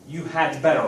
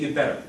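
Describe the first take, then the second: First: The word 'had' is said in full. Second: 'You had' is contracted to one syllable. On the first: "You had better, right?" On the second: "We say you'd better"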